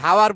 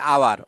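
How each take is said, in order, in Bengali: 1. শব্দটি h উচ্চারণ দিয়ে শুরু হয়। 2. শব্দটি স্বরধ্বনি দিয়ে শুরু হয়। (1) "উচ্চারণটা দেখো হাওয়ার বলি না" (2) "আমরা বলছি আওয়ার"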